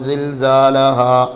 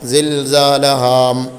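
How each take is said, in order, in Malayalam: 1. ഈ വാക്ക് അവസാനിക്കുന്നത് തുറന്ന, നീട്ടിയ സ്വരാക്ഷരത്തിലാണ്. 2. ഈ വാക്ക് അവസാനിക്കുന്നത് ചുണ്ടടച്ചുള്ള 'മ' ശബ്ദത്തിലാണ്. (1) "സിൽസാലഹാ ഹാ എന്ന് പറഞ്ഞിട്ടാണല്ലോ നിർത്തേണ്ടത്" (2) "ചുണ്ട് പൂട്ടി കഴിഞ്ഞാൽ അവിടെ എന്ത് വരും? മീമ് വരും"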